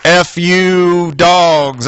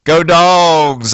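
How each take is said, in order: First: Very slow, dragged-out mock cursing of the team; Saturday night's disgusted reply to the Friday cheer; bitter curse. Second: Imitating his hopeful Friday cheer; Friday's eager rah-rah; fan cheer. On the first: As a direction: spit it out slowly after the loss. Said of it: "I was saying Saturday night". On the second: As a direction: cheer the team on with pep. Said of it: "I was saying on Friday".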